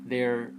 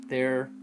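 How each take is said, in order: Both takes have the same delivery.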